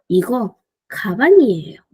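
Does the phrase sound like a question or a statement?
statement. The pitch stays level, like a statement. It asserts that this is a bag.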